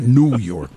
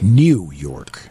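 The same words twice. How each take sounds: First: The words are loosely said with slurred consonants. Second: The words are crisply said with clear consonants. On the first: The speaker calls it wrong. "Not New York" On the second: The speaker calls it right. "correctly enunciated"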